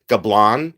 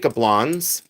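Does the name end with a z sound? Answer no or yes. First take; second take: no; yes. First: The name ends without a final z sound. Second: The name ends with a final z sound. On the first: "You can pronounce it Gablan if you wish" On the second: "I pronounce the Z"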